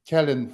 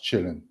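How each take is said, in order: First: The name is said the way common in Europe. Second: The name is said the Swedish way. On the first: The speaker calls it wrong. "in Europe I had only Kallen function" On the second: The speaker calls it right. "being Swedish citizen, Gunnar Kjellin should be pronounced Kjellin"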